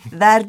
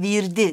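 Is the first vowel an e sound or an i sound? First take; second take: e sound; i sound. First: The first vowel is an e sound. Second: The first vowel is an i sound. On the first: This is the standard form. "bu kapalı E'yi bazı yöreler ... verdi yerine virdi" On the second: This is the regional dialect form. "verdi yerine virdi"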